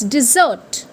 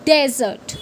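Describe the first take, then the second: First: Dessert as dih-zert; the correct dessert. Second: Dessert as dez-ert, stress first; the mistaken dessert; wrong way. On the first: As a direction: say dessert with a short i first. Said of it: "It's dessert". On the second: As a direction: say dessert like desert. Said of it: "People say it". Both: Shown as a demonstration.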